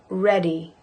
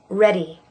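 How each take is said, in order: No difference in how they are said.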